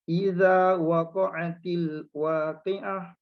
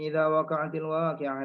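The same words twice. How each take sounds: First: It is recited slowly, word by word. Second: It is recited quickly, with little pause. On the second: "Kemudian dia laju lagi"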